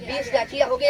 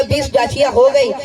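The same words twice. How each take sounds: First: Said in the usual way. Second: بیس ڈاچیاں ہو گئی said again louder, with weight on ہو; زور دے کر دہرانا; emphatic repeat. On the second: Shown as a demonstration. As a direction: lean into the line so the count lands. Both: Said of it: "اب توجہ کیجیے گا".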